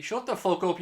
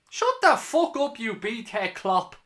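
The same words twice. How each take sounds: First: Said in the usual way. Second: Higher, louder, slow angry yell; furious yell. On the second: Real, not acted. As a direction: bellow it at the opposing manager. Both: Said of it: "more fucking fun if I'm a bit worked up".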